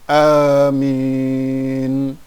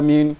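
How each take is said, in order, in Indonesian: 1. Vokal suku kedua dipanjangkan. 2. Vokal suku kedua pendek. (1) "Yang betul amin, min-nya ditarik panjang" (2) "salah kalau kita baca amin, salah"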